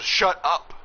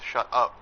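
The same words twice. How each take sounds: First: It is said out loud, more forcefully. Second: It is muttered quietly under the breath.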